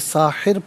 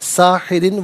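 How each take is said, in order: First: The word ends on a bare 'r' sound. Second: The word ends with an added 'in' sound. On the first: The reciter stops on this word. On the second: The reciter continues without stopping.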